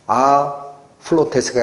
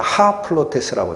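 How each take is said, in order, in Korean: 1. 이 단어는 바로 모음 소리로 시작해요. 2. 이 단어는 숨이 섞인 h 소리로 시작해요. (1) "아 플로테스가 아니라" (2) "강세가 나니까 ... 하 플로테스라고 돼요"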